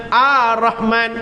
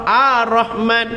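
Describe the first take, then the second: No difference in how they are said.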